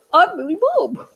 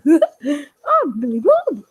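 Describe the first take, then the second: First: Lightly voiced puppet says his name; a touch of a cheery puppet. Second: Very slow, laughing, fake-weepy puppet; mock tearful. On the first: Puppet Billy Bob greets the viewers, lightly voiced. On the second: Puppet Billy Bob says his name, mock tearful and very slow. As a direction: drag out I'm Billy Bob with a hammed-up sob. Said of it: "I don't really talk like that much".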